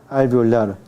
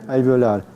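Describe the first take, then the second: The two takes are said the same way.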